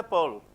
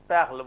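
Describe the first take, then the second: First: "pearl" said the English way, one syllable; English "pearl" with a long central vowel; English pronunciation. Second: "perle" said the French way, open E and throaty R; lower, firm French "perle"; French pronunciation. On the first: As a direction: say "pearl" as the English word, R barely sounded. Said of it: "In English we say pearl". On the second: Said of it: "but in French". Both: Shown as a demonstration.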